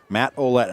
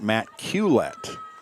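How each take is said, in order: First: The surname starts with a vowel sound. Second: The surname starts with a K sound. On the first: The speaker calls it right. "it was Matt Olette" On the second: The speaker calls it wrong. "I was pronouncing it Matt Culette"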